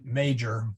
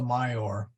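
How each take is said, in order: First: The word is pronounced the English way. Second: The word is pronounced the Latin way. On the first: "we pronounce it major" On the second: "it's actually Ursa Major"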